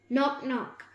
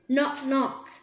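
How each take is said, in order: First: It is said quietly. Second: It is said loudly.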